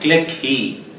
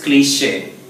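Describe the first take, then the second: First: The word is said with a hard 'k' and ends in 'ee'. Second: The word is said with an 'sh' and ends in 'ay'. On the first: The speaker calls it wrong. "It's not click he" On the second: The speaker calls it right. "It is cliche"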